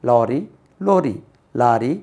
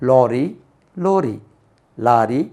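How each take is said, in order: Both takes have the same delivery.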